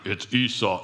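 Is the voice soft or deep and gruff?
deep and gruff. It is said in a deeper, gruffer voice. The speaker pretends to be someone else. "like trying to play it off"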